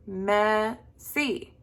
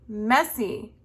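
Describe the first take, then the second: First: Messy split as long ME, then SY; messy pulled apart syllable by syllable; broken into syllables. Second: Said in the usual way. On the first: Shown as a demonstration. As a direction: say messy slowly in two beats. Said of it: "break up the word". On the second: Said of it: "the next one is".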